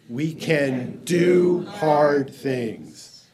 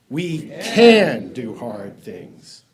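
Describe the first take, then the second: First: The stress is on "do hard things". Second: The stress is on "can".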